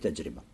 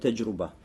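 First: The middle vowel is an i sound. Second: The middle vowel is a u sound. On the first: The speaker calls it right. "правильно говорить таджриба" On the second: The speaker calls it wrong. "Многие тулябулем читают его как таджруба"

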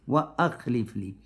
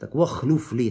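First: A glottal stop separates wa from the verb. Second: Wa runs straight into the verb without a stop. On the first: The speaker calls it right. "Нужно говорить «хамза туркаты»" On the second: The speaker calls it wrong. "Нельзя говорить «вахлюф», то есть «хамза аль-васара»"

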